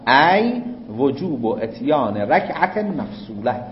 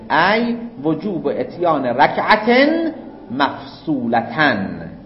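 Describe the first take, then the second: First: The last word ends in a plain 'e' sound. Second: The last word ends with a full 'tan' ending. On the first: The speaker calls it wrong. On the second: The speaker calls it right.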